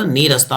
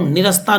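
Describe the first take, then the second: First: The first vowel is long. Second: The first vowel is short. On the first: The speaker calls it right. "नीरस्ता होता है।" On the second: The speaker calls it wrong. "निरस्ता नहीं"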